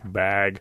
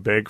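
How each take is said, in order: First: The vowel sounds like the vowel in cat. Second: The vowel sounds like the vowel in bed. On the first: "a word like bag is something that outsiders notice" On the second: "how they pronounce the A sound before a G sound"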